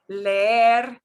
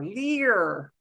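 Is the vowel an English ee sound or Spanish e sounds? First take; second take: Spanish e; English ee. First: The vowel is two Spanish e sounds together. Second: The vowel is a single English ee sound. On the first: The speaker calls it right. "No, it's leer" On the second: The speaker calls it wrong. "in English, when that happens, we make it an E sound"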